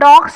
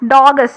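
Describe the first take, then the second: First: The word is said as one syllable. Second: The word is said as two syllables. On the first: This is the modern form. "ഡോഗ്സ് എന്ന വാക്കിനെ" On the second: This is the older historical form. "Middle English ഫോമിൽ ... ഡോഗസ്, D O G G E S"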